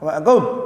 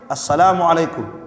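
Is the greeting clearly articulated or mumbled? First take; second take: mumbled; clear. First: The greeting is said carelessly and indistinctly. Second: The greeting is said carefully and distinctly. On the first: The greeting is given without care. The speaker calls it wrong. "Ada orang ketika salam asal-asalan. ... Jadi tidak jelas" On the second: The greeting is given properly as a prayer. The speaker calls it right. "Namanya doa itu harus baik. ... yang penting jelas ya"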